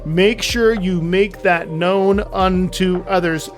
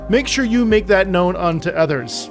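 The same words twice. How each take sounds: First: The sentence is spoken at a slower pace. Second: The sentence is spoken at a quicker pace.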